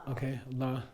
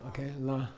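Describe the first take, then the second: Both takes have the same delivery.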